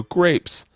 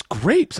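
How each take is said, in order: First: "Grapes" as a higher-pitched, falling statement; revealing answer. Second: "Grapes?" high with a rising tune; disbelieving question. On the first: Revealing the sandwich secret to a castmate, "Grapes" with a falling tune. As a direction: land "Grapes" as the big reveal, pitch dropping. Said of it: "And I go". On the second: Castmate reacting to the sandwich secret, "Grapes?" rising in disbelief. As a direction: echo "Grapes?" as a puzzled question, pitch climbing. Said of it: "He goes". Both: Retold or imitated.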